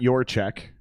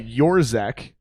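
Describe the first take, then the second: First: The second syllable sounds like 'check'. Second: The second syllable sounds like 'zek'. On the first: The speaker calls it wrong. "not your check" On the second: The speaker calls it right. "so Yorzek"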